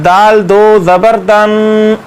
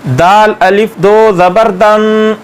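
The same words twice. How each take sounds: First: Alif skipped, just दाल दो ज़बर दन with दो stressed; correct reading. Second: Slowly spelling out the alif as if it were read, दाल अलिफ दो ज़बर दन; deliberately voicing the silent alif in दाल अलिफ दो ज़बर दन; wrong reading. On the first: Teacher shows students the right way, the alif left silent. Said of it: "बल्कि पढ़ना है". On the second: Teacher shows students the wrong way, naming the alif aloud. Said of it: "ऐसे नहीं पढ़ना". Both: Shown as a demonstration.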